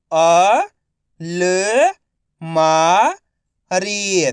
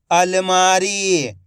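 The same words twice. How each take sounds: First: अलमारी drawn out slowly, अ-ल-मा-री; slow syllable by syllable. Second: Said in the usual way. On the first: Shown as a demonstration. (धीरे-धीरे अक्षर-अक्षर बोलें)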